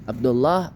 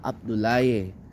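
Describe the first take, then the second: First: The name ends with a 'lah' sound. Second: The name ends with a 'laye' sound.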